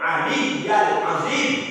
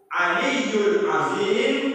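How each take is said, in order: First: The first word ends in an a vowel. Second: The first word ends in an u vowel. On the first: The speaker calls it wrong. "Yang tak boleh ... itu salah" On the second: The speaker calls it right.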